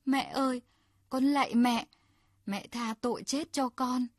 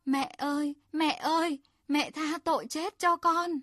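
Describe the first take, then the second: First: Mild plea for mercy. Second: Desperate cry for mercy, higher and louder; wailing plea. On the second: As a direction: beg the mother in a rising pitiful wail. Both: Acted. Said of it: "Hắn gào lên thảm thiết".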